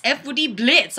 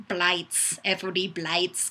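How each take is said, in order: First: Said in the usual way. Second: "Blights" with a long i, like lights, a bit softer; "Blights" rhyming with lights. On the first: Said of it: "although it's spelled more like Blights". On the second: Shown as a demonstration. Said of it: "it's spelled more like Blights".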